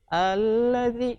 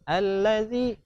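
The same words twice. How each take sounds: First: A sound in the word is held long. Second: The word is said straight through, without lengthening. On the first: The speaker calls it wrong. "enggak usah" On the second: The speaker calls it right. "Jadi langsung"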